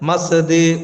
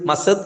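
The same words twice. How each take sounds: First: The final d is released with a clear bounce. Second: The final d has no clear bounce. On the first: The speaker calls it right. "ഇദ്ഹാർ ചെയ്യണം" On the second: The speaker calls it wrong. "മസദ് എന്നല്ല"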